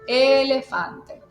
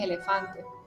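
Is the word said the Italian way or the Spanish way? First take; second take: Italian; Spanish. First: It is said Italian-style, stressing the first E, falling. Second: It is said with a Spanish pronunciation. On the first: "en italiano acentúo la primera, que en este caso sería la E, y desciendo" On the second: "Si lo digo en español es elefante"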